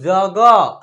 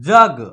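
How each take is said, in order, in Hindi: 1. शब्द के अंत में जोड़ा गया 'a' स्वर है। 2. शब्द एक खाली व्यंजन पर समाप्त होता है। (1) "अगर इसको हम लोग जग ऐसे करेंगे तब जो है ना यहाँ अ ए का प्रयोग होगा" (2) "अ की साउंड नहीं निकालना है"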